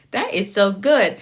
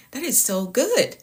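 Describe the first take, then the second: First: Said in the usual way. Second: Unvoiced whisper of "That is so good.". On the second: Real, not acted. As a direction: whisper "That is so good." under breath. Whispered then repeated aloud.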